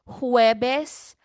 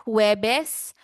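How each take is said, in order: No difference in how they are said.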